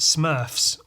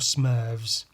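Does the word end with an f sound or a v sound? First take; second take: f sound; v sound. First: The word ends with an f sound. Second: The word ends with a v sound. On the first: "You pronounce it Smurfs" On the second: "or Smurvs because of wolves and of elves"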